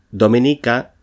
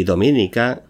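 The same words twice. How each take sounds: First: Dominica with stress on the second syllable, do-MI-ni-ca. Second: Dominica with stress on the third syllable, do-mi-NI-ca; unstressed dominica. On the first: Teacher listing stress variants, dominica stressed on MI. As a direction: say dominica as domínica, leaning on MI. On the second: Teacher giving the second form, dominica stressed on NI. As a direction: say dominica as do-mi-NI-ca, rising at the end. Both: Shown as a demonstration. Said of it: "con tilde o sin ella".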